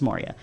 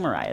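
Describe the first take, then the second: First: The name sounds like Moria. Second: The name sounds like Mariah. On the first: The speaker calls it right. "it's Moria" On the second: The speaker calls it wrong. "I'm not saying Mariah"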